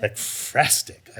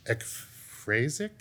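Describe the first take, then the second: First: "Ekphrastic" slowly, with a clear "-stic" ending; corrected pronunciation. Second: "ekphrasic" slowly sounded out, no t before the last syllable; unsure pronunciation. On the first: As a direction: sound out "Ekphrastic" carefully, stretching the "fras". Corrects the misread word. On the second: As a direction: stumble questioningly through "ekphrasic", drawn out. Unsure reading of word, then corrected. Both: Real, not acted.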